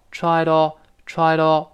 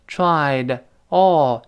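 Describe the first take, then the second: First: "tried all" joined as "try-dall"; linked words. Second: "tried" with its full d, then "all" on its own; separate words. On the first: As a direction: slide the d of "tried" straight into "all". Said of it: "连到一块儿了". (tried all连读成“try-dall”) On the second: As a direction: keep a gap between "tried" and "all". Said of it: "辅音碰见元音要连读了". (tried和all分开读) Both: Shown as a demonstration.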